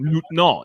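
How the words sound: It is said with a French pronunciation. "It's actually how they say it in French"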